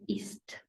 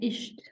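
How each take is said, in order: First: The s before the t sounds like s. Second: The s before the t sounds like sh. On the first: The speaker calls it right. "then we pronounce it as s" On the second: The speaker calls it wrong. "if it was to follow the general rule here, we would be saying"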